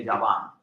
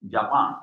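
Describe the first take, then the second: First: Japan said as Javan, v-like b for the P. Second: Said in the usual way. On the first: Shown as a demonstration. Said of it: "you say Javan". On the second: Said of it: "You don't say".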